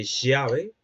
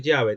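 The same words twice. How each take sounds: First: "llave" said with a different ll sound; dialectal pronunciation. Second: Said in the usual way. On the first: Shown as a demonstration. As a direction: demonstrate another accent's ll in "llave". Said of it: "te dice llave". ("llave" pronunciada con otro sonido de ll, como ejemplo de acento) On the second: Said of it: "en lugar de decir llave".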